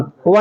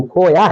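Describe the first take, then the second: First: کھوا said khowa, with a w glide; colloquial pronunciation. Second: کھویا said khoya, with a y glide; original pronunciation. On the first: Teacher showing students the everyday form, کھوا said with a w. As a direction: say کھوا with w, not y. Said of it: "کھوا نہیں ہے اصل". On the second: Teacher giving students the original Urdu word, کھویا said with a y. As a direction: say کھویا with y, not w. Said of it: "یا کو واو سے بدل دیا ہے". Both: Shown as a demonstration.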